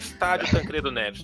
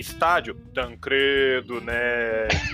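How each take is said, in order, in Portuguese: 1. É dito em tom neutro. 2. É dito em tom irônico, debochado. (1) "não é estádio Tancredo Neves" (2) "Você não leu com a inflexão certa"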